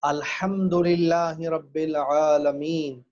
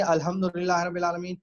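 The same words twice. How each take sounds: First: Slow, drawn-out الحمدللہ with a full throaty ح; correct pronunciation. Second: الحمدللہ run together with a plain h; wrong pronunciation. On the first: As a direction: model recitation, every long vowel of العالمین held. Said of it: "اگر آپ کہیں گے". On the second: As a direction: rattle off الحمدللہ, ح flattened to ordinary h. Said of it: "غلط طریقے سے کہیں گے". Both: Shown as a demonstration.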